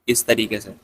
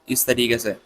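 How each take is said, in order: Both takes have the same delivery.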